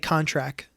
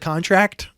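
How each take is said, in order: First: The final T sound is dropped. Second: The final T sound is clearly pronounced. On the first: It imitates the coworker's habit. The speaker calls it wrong. "They'll say contract" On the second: It models the correct form for the coworker. The speaker calls it right. "I'll try to slip in a correction"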